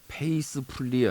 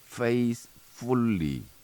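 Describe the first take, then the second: First: It is said in flat Korean-style syllables. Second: It has an English th followed by f. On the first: The speaker calls it wrong. "페이스풀리 아니고" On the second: The speaker calls it right. "faithfully 두 개 들어가야 되죠"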